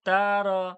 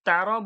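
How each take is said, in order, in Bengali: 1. স্বরধ্বনিগুলো টেনে দীর্ঘ করে বলা হয়। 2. স্বরধ্বনিগুলো ছোট, কোনো টান নেই। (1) "এই তারা তারা এরম যেন না হয়ে যায়" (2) "আমি যে তারা বলবো"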